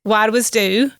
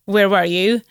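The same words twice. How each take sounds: First: "Where was du?" with "du" for you and a lilting rise; Shetland dialect. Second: Said in the usual way. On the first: Shown as a demonstration. Guest contrasting the Shetland phrase with its English, dialect take.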